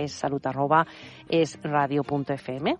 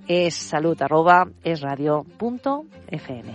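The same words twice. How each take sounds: First: It is said at a normal, quicker pace. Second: It is said a little more slowly.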